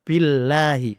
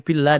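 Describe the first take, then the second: First: The word ends with a sounded final vowel. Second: The word ends without its final vowel. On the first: The reading continues into the next word. The speaker calls it right. "Harus baca billahi" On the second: The reading stops at this word. The speaker calls it wrong. "Tidak boleh billah, tidak boleh"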